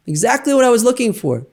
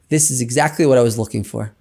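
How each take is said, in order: First: "Exactly" lifted much higher on the repeat; emphatic repeat. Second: Said in the usual way. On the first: Retold or imitated. Rabbi stresses "Exactly" to the group after rappelling. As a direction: hit "Exactly" high to drive it home.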